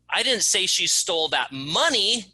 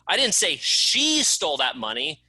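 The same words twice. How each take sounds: First: The word "money" is stressed. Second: The word "she" is stressed. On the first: Something other than money was stolen. "It wasn't the money she stole, it was that box of pencils" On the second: Someone else did the stealing. "It wasn't her, it was someone else that stole it"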